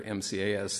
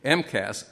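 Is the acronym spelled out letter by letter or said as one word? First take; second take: letter by letter; one word. First: Each letter is said separately. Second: It is said as one short word. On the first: "instead of saying each letter" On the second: "to shorten the way we'd put it"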